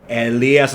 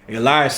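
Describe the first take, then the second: First: The name is said with Spanish pronunciation. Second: The name is said with English pronunciation. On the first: It is the form used in Spanish. "Elias es para español" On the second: It is the form used in English and Greek. "Elias is for the English and the Greek"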